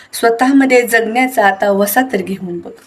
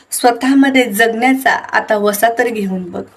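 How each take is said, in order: No difference in how they are said.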